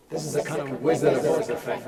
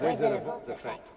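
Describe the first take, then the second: First: Booming voice through an effect unit; Wizard of Oz effect. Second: Breathy processed whisper; unvoiced processed echo; whispery wizard effect. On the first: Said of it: "I'm gonna run through a few of them now". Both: Shown as a demonstration.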